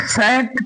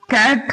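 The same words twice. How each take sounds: First: सैट, the C sounded as S; CAT misread with S. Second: कैट with a hard K sound at the start; CAT read with K. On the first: Teacher offers class a wrong reading, सैट with S sound. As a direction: say सैट with an S instead of K. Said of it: "क्या पढ़ोगे?". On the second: Teacher asks class how C-A-T is read, कैट with K sound. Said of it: "उच्चारण कीजिए". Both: Shown as a demonstration.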